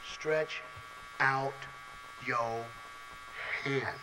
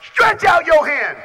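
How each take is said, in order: First: Each word alone with long pauses, softer; Jesus' command spoken slow and low; slow hushed command. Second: Slow, high, loud command; Jesus' command shouted. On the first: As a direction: let every word hang in the silence. Same command retold, slow, hushed. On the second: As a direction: proclaim it over the crowd. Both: Retold or imitated.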